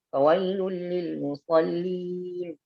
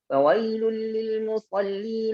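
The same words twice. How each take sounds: First: The recitation stops right after musallin. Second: The recitation continues past musallin without stopping. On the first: The speaker calls it wrong. "Itu yang jangan" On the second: The speaker calls it right. "boleh kita bilang"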